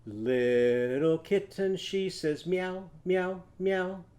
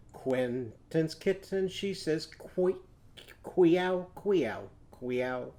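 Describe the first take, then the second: First: Slow singing with meow sounds; sung kitten verse. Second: Queow sung slowly with a qu start; qu sound on meow. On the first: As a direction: sing meow slowly. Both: Shown as a demonstration. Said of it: "What if we did it with a cat?".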